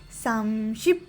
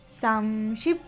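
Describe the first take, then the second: No difference in how they are said.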